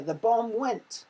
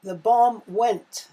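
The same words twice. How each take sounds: First: Louder, slow, suspenseful read; dramatic build-up. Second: Much louder, slow, suspenseful; dramatic build-up. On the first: Teacher reading the quiz sentence to pupils, slow and dramatic. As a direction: build suspense before the bang. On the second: Teacher marking the quiz, reading the bomb sentence big and slow. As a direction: build to the explosion. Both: Shown as a demonstration.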